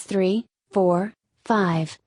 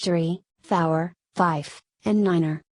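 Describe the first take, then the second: First: Said in the usual way. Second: "four" drawn out as "fower" and "niner" with two syllables; radio-style numerals. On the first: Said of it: "differs from Standard English". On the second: Shown as a demonstration. Reading out the radio numerals, "four" as "fower" and "nine" as "niner". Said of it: "being pronounced".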